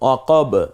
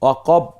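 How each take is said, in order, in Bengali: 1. শেষের b টি একটি ঝাঁকুনি দিয়ে ছাড়া হয়। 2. শেষের b টি কেটে দেওয়া হয়, কোনো ছাড়া হয় না। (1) "এই দুইটা ঠোঁট দ্রুত আবার আলাদা হয়ে গেল" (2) "এভাবে বলছি না কিন্তু"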